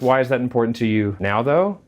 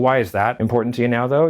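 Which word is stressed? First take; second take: now; that. First: The word "now" carries the main stress. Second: The word "that" carries the main stress. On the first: The question asks about the timing. "You're only going to answer in terms of time frame" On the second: The question asks about the thing itself. "You're only going to answer in terms of that"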